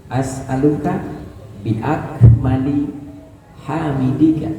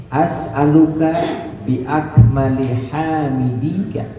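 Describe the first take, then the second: Both takes have the same delivery.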